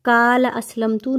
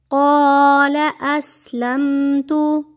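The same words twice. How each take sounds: First: क़ाल said with a thin front k; flat क़ाल असलमतु, the wrong way; wrong light kaf. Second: Slow chanted recitation, heavy qaf; stretched tajweed chant; Quranic recitation. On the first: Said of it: "क़ाल असलमतु नहीं पढ़ना". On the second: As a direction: recite slowly and melodically. Recites verse. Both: Shown as a demonstration.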